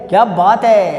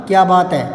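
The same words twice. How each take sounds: First: क्या बात है with a loud falling exclaim on है; exclamation. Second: Said in the usual way. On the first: Shown as a demonstration. Teacher showing students the exclamatory reading. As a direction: exclaim it in admiration, punching है. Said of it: "ये है". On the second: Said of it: "तो इसको यूं नहीं पढ़ना".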